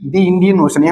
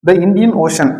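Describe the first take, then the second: First: "The" is said with a long "thee" vowel. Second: "The" is said with a short "thuh" vowel. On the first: The speaker calls it right. "தி" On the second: The speaker calls it wrong. "த வராது"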